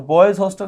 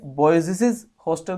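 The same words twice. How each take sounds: First: Said in the usual way. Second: Put-on बॉयज stretched into "boy-zis-iz"; wrong stuttered ending, "boyzisiz" for बॉयज; doubled s. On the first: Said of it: "सही है". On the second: Shown as a demonstration. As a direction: pile extra s syllables onto बॉयज. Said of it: "गलत है".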